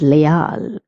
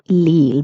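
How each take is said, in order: First: The first vowel is 'ay', then a separate 'a'. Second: The word sounds like 'leel', with an 'ee' vowel. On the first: This follows Spanish vowel sounds. The speaker calls it right. "it is leal ... the E is pronounced as A" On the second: This follows English reading habits. The speaker calls it wrong. "some people pronounce is lil because they're doing the English pronunciation"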